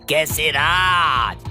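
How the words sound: It is said in a deep, bassy voice.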